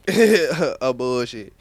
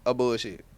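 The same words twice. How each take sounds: First: Slow laughing. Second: Said in the usual way. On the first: Real, not acted. Repeats verdict, drawn out laughing.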